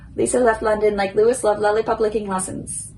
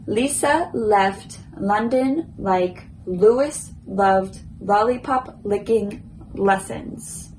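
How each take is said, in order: First: The sentence is said as fast as possible. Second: The sentence is said at a slow pace.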